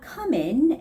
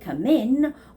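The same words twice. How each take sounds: First: The stress falls on the first word. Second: The stress falls on the second word. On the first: The speaker calls it wrong. "So it's not come in" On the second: The speaker calls it right. "the stress goes on the word in"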